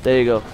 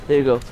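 No difference in how they are said.

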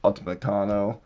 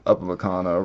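First: "Upamecano" said as ALtamecano; mispronounced. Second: "Upamecano" said cleanly as OOpamecano; corrected. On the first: Reading card names, first stumbling over "Upamecano". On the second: Reading card names, correcting "Upamecano". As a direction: fix "Upamecano", clear first syllable. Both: Real, not acted.

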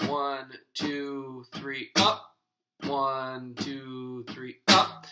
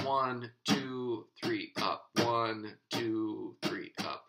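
First: Beginner's halting "three, up"; uneven count with hesitation. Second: Smooth even counting; even steady count. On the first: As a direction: pause before "up", then "up" popped loud with a rise. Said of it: "where there's almost a pause". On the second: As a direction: keep every beat and "up" evenly spaced. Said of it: "you want it to be even". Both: Shown as a demonstration.

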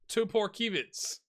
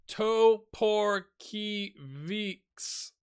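First: Toporkiewicz run together as one name after sounding it out; tentative pronunciation. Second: Toporkiewicz drawn out very slowly, syllable by syllable; careful sounding-out. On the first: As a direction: try Toporkiewicz in one go, higher pitched. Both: Real, not acted. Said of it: "something like that".

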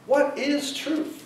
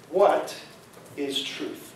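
First: "What is truth?" slow and lifted, in one unbroken phrase; slow, pointed question. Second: Low, quiet, with a pause after "What"; hushed, halting question. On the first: Real, not acted. Preacher putting Pilate's question to the congregation, slow pointed question. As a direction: ask "What is truth?" slowly, higher on "is truth". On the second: Acted. Preacher quoting Pilate at the trial, low halting question. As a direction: let "What ... is truth?" sink down softly, broken by a pause.

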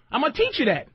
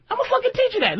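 First: Said in the usual way. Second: Pitched much higher, hammering teach; emphatic repeat. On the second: Real, not acted. Host insisting to the guest he'll teach her, emphatic high. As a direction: repeat it like a threat you mean.

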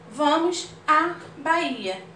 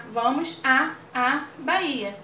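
First: À in Vamos à Bahia slow and stressed; crase demo. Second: À held long before Bahia. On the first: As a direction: lean on à as a fused a-a. (Vamos à Bahia, devagar, marcando o à) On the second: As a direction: hold à as a double a, then Bahia. (à alongado, como dois as) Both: Shown as a demonstration. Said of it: "É o mesmo que a, a".

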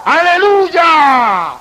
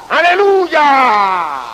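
First: Long drawn-out shout of "¡Aleluya!", higher and louder; a preacher voicing the heavenly voice that cries out, booming shout. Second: Long drawn-out, very slow shout of aleluya; heavenly shout. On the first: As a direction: bellow "¡Aleluya!" slowly like the voice from heaven. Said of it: "Y esa voz grita". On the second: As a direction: stretch "¡Aleluya!" like a cry from heaven. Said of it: "que grita". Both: A narrator's reading.

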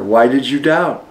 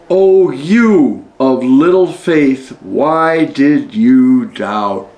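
First: Said in the usual way. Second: Slow, gentle reproach, each word drawn out; gentle rebuke. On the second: A narrator's reading. Jesus gently chiding Peter after saving him, slow and tender. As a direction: rebuke him tenderly, taking your time.

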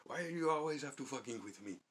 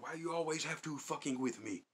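First: High, loud imitation of the Yemeni clerk's accent, laughing through it. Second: High, loud imitation of the Yemeni clerk's accent. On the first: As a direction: mimic the clerk again, pitched up and louder. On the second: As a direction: mimic the clerk snapping back, pitched up. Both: Clerk snapping at troublemakers, loud high accented impression. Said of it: "He'd be like".

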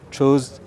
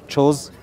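Both takes have the same delivery.

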